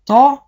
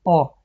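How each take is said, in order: First: تا said with the heavy emphatic t. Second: تا said with a light plain t. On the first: Teacher shows students the heavy تا. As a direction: give تا the full heavy emphatic t. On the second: Teacher shows students the light تا. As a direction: let تا fall lightly with a plain t. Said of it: "اینجا حرف تا هست". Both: Shown as a demonstration.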